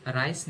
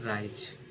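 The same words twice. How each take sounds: First: राइस said with a hissing s sound, as the wrong way; wrong reading rice. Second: राइज said with a buzzing z sound, lower and softer; correct reading rise. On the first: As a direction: read राइस with a sharp s like rice. (गलत उच्चारण राइस, स की आवाज़ के साथ) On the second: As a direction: end राइज on a soft z like rise. (सही उच्चारण राइज, ज़ की आवाज़ के साथ) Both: Shown as a demonstration. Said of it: "राइस नहीं पढ़ेंगे".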